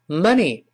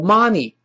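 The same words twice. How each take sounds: First: The first vowel is a short 'uh' sound. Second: The first vowel is an open 'ah' sound. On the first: The speaker calls it right. "是money" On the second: The speaker calls it wrong. "注意不要读money，不是发啊"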